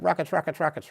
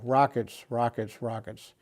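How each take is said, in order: First: The words are said quickly in rapid succession. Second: The words are said slowly with gaps between. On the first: An attack is definitely on the way. "real fast" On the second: There is usually no big danger. "if he said it slowly"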